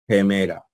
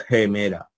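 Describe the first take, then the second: Both takes have the same delivery.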